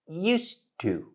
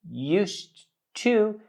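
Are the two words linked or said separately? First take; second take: linked; separate. First: The d blends into the t sound. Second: The d and t are said separately.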